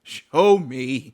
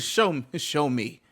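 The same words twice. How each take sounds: First: A loud, drawn-out dare on "Show"; loud challenge. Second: Said in the usual way. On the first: Real, not acted. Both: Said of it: "If you think I'm wrong".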